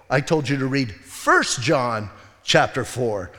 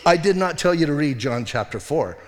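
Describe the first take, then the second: First: "First" set apart and drawn out; slow correction, leaning hard on "First"; stress on FIRST. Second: Firm correction, leaning on "not"; stress on NOT. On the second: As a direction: deny it with weight on "not", "John" left bare. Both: Retold or imitated. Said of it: "showed her the difference".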